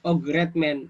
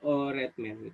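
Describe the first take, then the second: First: A clear g sound is heard mid-word. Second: No g sound is heard mid-word. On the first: The speaker calls it wrong. "nggak menjadi ogretmen" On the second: The speaker calls it right. "ya menjadi oretmen gitu"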